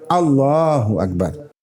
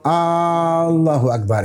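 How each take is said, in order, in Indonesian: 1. Vokal pertama pada Allahu dibaca pendek. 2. Vokal pertama pada Allahu dipanjangkan.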